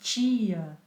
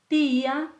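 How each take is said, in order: First: The t comes out as a hissy ch sound. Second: The t is a plain, crisp t sound. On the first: The speaker calls it wrong. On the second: The speaker calls it right.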